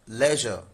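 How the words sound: It is said with a British accent. "In U K, this is leisure"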